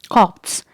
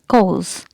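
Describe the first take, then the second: First: The R and P sounds are pronounced. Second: The R and P sounds are silent. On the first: The speaker calls it wrong. "you'll not pronounce it like copse" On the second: The speaker calls it right. "letter R and P are silent"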